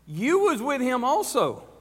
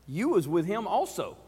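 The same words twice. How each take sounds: First: Pitched higher, pressing the accusation; insistent accusation. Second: Said in the usual way. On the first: Acted. Maid pressing Peter again with a higher, insistent accusation. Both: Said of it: "this is what she says".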